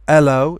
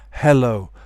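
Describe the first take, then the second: First: The h at the start is dropped. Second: The h at the start is pronounced. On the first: The speaker calls it wrong. "Some people say" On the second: The speaker calls it right. "instead of"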